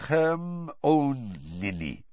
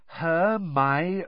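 First: Hermione said Her-mo-nee with heavy accent; accented mispronunciation. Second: Hermione said slowly as her-MY-oh-nee, clearly; careful pronunciation. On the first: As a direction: stumble over Hermione in thick accent. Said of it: "He kept calling her Hermione". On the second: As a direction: spell out Hermione syllable by syllable. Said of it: "teaching Krum to say her name". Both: Shown as a demonstration.

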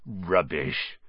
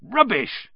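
First: Rubbish said low and soft, brushing it off; a quiet low Rubbish from the half-giant; lower, softer dismissive rubbish. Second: Rubbish tossed off high and sharp; higher brushing-off Rubbish; higher, dismissive Rubbish. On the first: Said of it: "said Hagrid". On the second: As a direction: scoff Rubbish at the kids, much higher. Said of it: "said Hagrid again". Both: A narrator's reading.

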